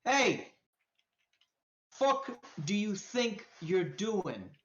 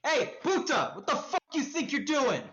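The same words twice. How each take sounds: First: Menacing challenge. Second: High, quick-fire confrontational street voice; angry challenge. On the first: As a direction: confront them slowly, word by word. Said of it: "And he's like". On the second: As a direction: call out sharply at a stranger behind you. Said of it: "you hear a voice behind you". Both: Acted.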